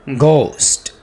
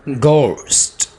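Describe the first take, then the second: No difference in how they are said.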